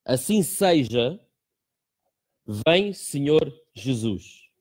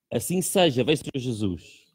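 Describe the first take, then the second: First: Slow, drawn-out prayerful reading. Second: Said in the usual way. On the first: Shown as a demonstration. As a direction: pray each word slowly and solemnly. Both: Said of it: "tem essa pequeníssima oração que diz".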